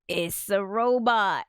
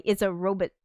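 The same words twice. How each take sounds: First: "robot" drawn out slowly with a full "bot" ending; modern pronunciation. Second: "robot" with a weak second syllable, like ROH-bit; old-fashioned pronunciation. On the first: Shown as a demonstration. Streamer quoting the film scene, modern full-vowel "robot". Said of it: "Or, as Isaac Asimov would say". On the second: Retold or imitated. Streamer quoting how Asimov would say it, old-style "robot" as ROH-bit. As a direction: reduce the end of "robot" to "bit". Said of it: "as Isaac Asimov would say".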